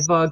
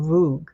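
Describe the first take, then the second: First: The word is said the usual way. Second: The word is said the Cornish way. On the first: "indentation here is called a vug" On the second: "they pronounced it voog"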